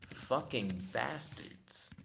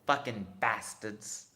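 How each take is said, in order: First: It is read in the speaker's normal voice. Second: It is said in a put-on character voice.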